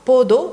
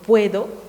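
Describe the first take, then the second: First: The first vowel is a single vowel. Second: The first vowel is a diphthong. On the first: This is the Saharawi dialect form. "ejemplos de monoptongación" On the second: This is the standard form. "en vez de"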